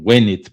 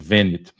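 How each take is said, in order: First: It is said in restored classical Latin pronunciation. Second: It is said in ecclesiastical Latin pronunciation. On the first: "eu preferia aqui a, a restaurada" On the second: "em vez de"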